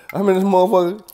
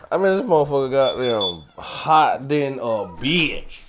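First: Higher, louder burst at the heat; heat outburst. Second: Slow, louder drag of the heat complaint; drawn-out complaint. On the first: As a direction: blurt it out, fed up with the heat. Complaining loudly about the heat. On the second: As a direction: stretch every word out like the heat. Repeats the complaint more drawn out. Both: Real, not acted.

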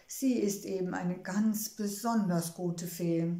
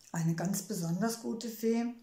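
First: Said in the usual way. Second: Doubtful echo. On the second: A narrator's reading. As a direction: repeat it back as a questioning echo, rising at the end. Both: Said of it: "Trixie kam da leise Zweifel".

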